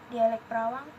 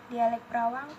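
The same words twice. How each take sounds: Both takes have the same delivery.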